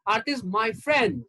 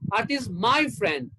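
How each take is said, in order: First: The word friend carries the stress. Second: The word my carries the stress. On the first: She is a friend, not a partner or relative. "That means she's my friend and she's not my wife or my girlfriend or my sister" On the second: She is the speaker's friend, not the listener's. "That means she's mine, not yours"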